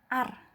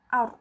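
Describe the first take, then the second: First: The r is light, without rounded lips. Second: The r is heavy, with rounded lips. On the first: The speaker calls it wrong. "Bukan bukan hanya seperti ini" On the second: The speaker calls it right. "bibir kita juga membentuk huruf O ya"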